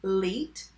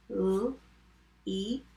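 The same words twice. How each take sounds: First: Said in the usual way. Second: "L-E-T" as three separate sounds with long gaps; sounded out. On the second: Shown as a demonstration. Teacher tapping the second syllable, sounded out. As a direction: tap out "L-E-T" sound by sound. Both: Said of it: "Let's tap leet".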